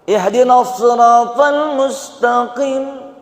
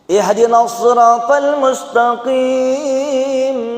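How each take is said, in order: First: The last vowel of mustaqim is short. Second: The last vowel of mustaqim is long. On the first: Guide us to the path of the sick. The speaker calls it wrong. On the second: Guide us to the straight path. The speaker calls it right.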